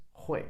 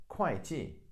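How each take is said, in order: First: 会 said "hway", with an h at the start; 会 as huì. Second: 会计 said "kwai-ji", 会 starting with a k; 会 as kuài. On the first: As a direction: pronounce 会 as "hway", no k sound. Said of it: "this character is pronounced as 会". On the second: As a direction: pronounce 会 in 会计 as "kwai". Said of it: "is pronounced as 会计". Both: Shown as a demonstration.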